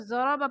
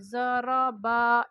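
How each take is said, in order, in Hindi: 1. स्वर छोटे हैं और जल्दी पढ़े जाते हैं। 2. स्वर खिंचे हुए और लंबे किए जाते हैं। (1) "इसको ज़रा बा पढ़ेंगे" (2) "इस तरीके से नहीं पढ़ेंगे"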